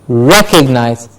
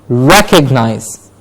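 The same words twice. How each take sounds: The two takes are said the same way.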